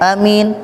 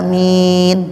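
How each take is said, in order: First: Both vowels are said short. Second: Both vowels are held long. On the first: "a pendek, mim pendek" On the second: "Lebih baik panjang aminnya"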